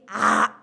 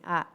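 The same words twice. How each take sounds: First: The vowel is said very loud. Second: The vowel is said moderately loud. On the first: "keras lagi" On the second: "agak keras nih"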